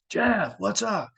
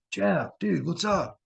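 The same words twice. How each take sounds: First: High, drawn-out mock call; slower call through a door. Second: High, mock call to a sleeping friend; calling through a door. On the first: Still locked out, calling Jeff again, slow and high. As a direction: stretch his name out, calling up high. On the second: Locked out, calling roommate Jeff through the door, high mock call.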